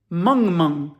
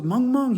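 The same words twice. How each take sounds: First: Said in the usual way. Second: "Mung Mung" pitched up in disbelief; puzzled echo question. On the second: Retold or imitated. Officer hearing of the language, "Mung Mung" as a higher puzzled question.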